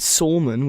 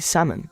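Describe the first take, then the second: First: The L in the word is sounded. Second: The L in the word is silent. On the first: The speaker calls it wrong. "We don't say it salmon" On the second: The speaker calls it right. "We say salmon"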